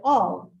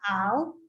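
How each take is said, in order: First: The vowel is an aw sound. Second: The vowel is a short a sound. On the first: The speaker calls it right. "we say all" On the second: The speaker calls it wrong. "we don't say it al"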